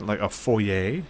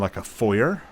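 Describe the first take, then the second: First: Foyer is said in a careful formal way. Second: Foyer is said in a casual everyday way.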